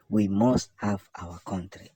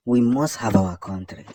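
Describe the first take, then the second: First: "must" carries the weight at normal level; calm repeat, stressing "must". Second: "We" hit hard and louder; "We" louder and falling; stress on we. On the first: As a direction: lean on "must" in "We must have our country". Repeats the slogan, second take. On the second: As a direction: punch "We" in "We must have our country". Repeats the slogan, first take. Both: Acted.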